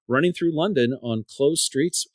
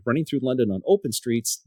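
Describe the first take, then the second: First: "closed" set apart, tune lifting at the end; contrast on closed. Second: "open" most prominent, tune falling after it; stress on OPEN. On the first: Runner recommends race routes, contrastive stress on "closed". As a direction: lean on "closed" as the good option. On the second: Runner warns about traffic routes, contrastive stress on "open". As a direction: punch "open" against the earlier option. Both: Real, not acted.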